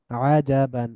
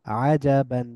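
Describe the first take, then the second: No difference in how they are said.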